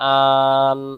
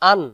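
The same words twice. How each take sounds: First: The vowel is drawn out and said slowly. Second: The vowel is said quickly and kept short. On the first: The speaker calls it wrong. "তাহলে হারকাতের উচ্চারণ ভুল হয়ে যাবে।" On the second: The speaker calls it right. "উচ্চারণ তাড়াতাড়ি পড়তে হবে।"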